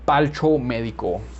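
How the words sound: The word is said with an L sound.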